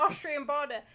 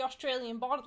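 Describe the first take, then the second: First: "Austrian border" with Austrian said OSS-tree-an, no "-al-"; corrected, Austrian. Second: "Australian border" with Australian said as in Australia, the slip. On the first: Correcting his slip to a friend, saying Austrian. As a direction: fix it to "Austrian", laughing a little. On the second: Describing a friend's home near the border, the Australian slip. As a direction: say "Australian" by mistake, full aus-TRAY-lian. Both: Real, not acted. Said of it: "Austrian, not Australian".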